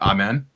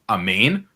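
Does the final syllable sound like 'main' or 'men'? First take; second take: men; main. First: The final syllable sounds like 'men'. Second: The final syllable sounds like 'main'. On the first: This is the usual English pronunciation. "That's how you guys pronounce it" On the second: This is the original Hebrew pronunciation. "The actual correct way to pronounce it in Hebrew is amen"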